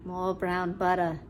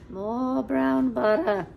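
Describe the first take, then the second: First: Said in the usual way. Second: Louder, slow, stressing brown; emphatic repeat. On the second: Shown as a demonstration. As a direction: say "More brown butter" again slowly and louder, leaning on brown.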